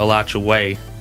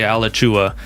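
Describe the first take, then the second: First: The 'way' syllable is clearly emphasized. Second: The 'way' syllable is not emphasized. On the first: The speaker has lived in the area a while. "they'll put an emphasis on the way" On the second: The speaker is not from the area. "They'll say Alachua"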